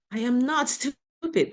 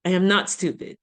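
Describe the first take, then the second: First: NOT stretched and high, slow; firm, slow, stress on "not". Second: "not" pressed firmly, a bit louder; firm reassurance, "not" stressed. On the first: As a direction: lean on the word "not" in "I am not stupid". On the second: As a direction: punch "not" in "I am not stupid". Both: Shown as a demonstration. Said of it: "I feel stupid".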